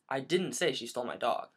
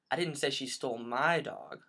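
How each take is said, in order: First: The stress falls on the word didn't. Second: The stress falls on the word my.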